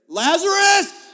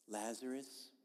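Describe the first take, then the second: First: It is yelled in a loud voice. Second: It is said softly and sweetly. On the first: The call is forceful and commanding. The speaker calls it right. "It literally means he yelled with a loud yell" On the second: The call is gentle and harmless. The speaker calls it wrong. "like a Precious Moments figurine"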